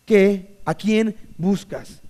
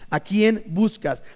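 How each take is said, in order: First: Drawn-out probing question; slow emphatic question. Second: Slow, searching ask; drawn-out probing question; slow emphatic question. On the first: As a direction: let it sink in slowly. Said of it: "perspectiva correcta". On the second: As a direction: let it land slowly. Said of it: "brincar del texto". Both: Shown as a demonstration.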